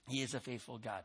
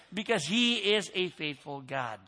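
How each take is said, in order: First: Much softer and lower, almost under the breath; soft repeat. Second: Said in the usual way. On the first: Real, not acted. Preacher echoing his own line to the church, hushed. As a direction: let it sink in quietly.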